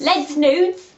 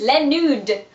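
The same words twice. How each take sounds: First: Loud, higher London-English "Les Nudes"; London accent. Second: Playful French pronunciation, louder; mock French accent. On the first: Pretend. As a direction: butcher the French in a London accent. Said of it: "That's really London". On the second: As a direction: put on a French accent for the name.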